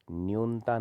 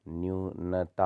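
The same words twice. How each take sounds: First: न्यूनता as two beats, "nyun-ta"; run-together n-t. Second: न्यूनता as "nyu-na-ta", slowly; separated syllables. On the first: Teacher showing the error, न्यूनता as "nyunta". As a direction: say न्यूनता with no vowel after n. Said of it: "नहीं होता". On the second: Teacher correcting it, न्यूनता in three slow beats. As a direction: sound the vowel after n in न्यूनता. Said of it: "होता है". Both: Shown as a demonstration.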